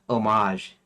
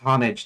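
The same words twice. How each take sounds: First: It is said with a French pronunciation. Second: It is said with an American pronunciation. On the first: The speaker calls it wrong. "not homage, because homage is the French pronunciation" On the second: The speaker calls it right. "I'm American, so I should say homage"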